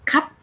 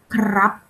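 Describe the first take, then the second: First: The r in the initial cluster is dropped. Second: The r in the initial cluster is clearly pronounced. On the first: "In spoken language, we just say kap pao" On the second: "We don't say like blau or krap clearly"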